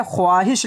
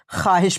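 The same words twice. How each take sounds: First: ख्वाहिश as "khwaahish", w sounded; as it is written. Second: ख्वाहिश as "khaahish", waw silent; as it is read. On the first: Teacher reads out the spelling, ख्वाहिश with audible w. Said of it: "लिखी जाती है". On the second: Teacher gives the spoken form, ख्वाहिश as khaahish. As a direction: drop the w from ख्वाहिश. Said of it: "पढ़ी जाती है". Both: Shown as a demonstration.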